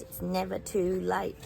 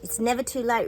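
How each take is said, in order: First: Slow and deliberate. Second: Higher, louder, bright emphatic line. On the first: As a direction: let it sink in slowly. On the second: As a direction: say it with a rousing lift. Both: Real, not acted. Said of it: "Remember that, guys".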